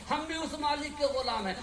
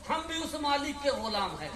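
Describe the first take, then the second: No difference in how they are said.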